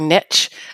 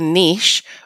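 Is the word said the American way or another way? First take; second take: American; another way. First: The word is said the American way. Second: The word is said in a non-American way.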